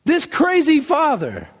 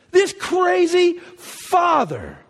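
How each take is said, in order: First: This crazy father, slow and high; slow emphasis. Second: Much higher, very slow, near tears; voice breaking. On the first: Preacher marvelling at the father, slow and emphatic. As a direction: lean into crazy. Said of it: "this crazy father (repeated, crying)". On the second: Preacher moved to tears by the father's love, voice breaking. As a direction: let your voice crack on this crazy father. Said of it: "repeat with cry". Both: Real, not acted.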